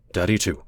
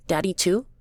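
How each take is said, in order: First: Low, reluctant concession; reluctant man, falling tone; begrudging. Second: Put-on high, questioning child voice; high-pitched rising child's question; small boy. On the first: Acted. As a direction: grudgingly agree with the child. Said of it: "Kai would say begrudgingly". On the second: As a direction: ask like a hopeful little kid. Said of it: "Chrissy would say".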